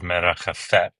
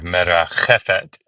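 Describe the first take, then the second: First: The stress is on the last syllable. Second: The stress is on the second-to-last syllable. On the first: The speaker calls it wrong. "as opposed to the, the last one where it normally goes" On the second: The speaker calls it right. "you have merachefet instead of"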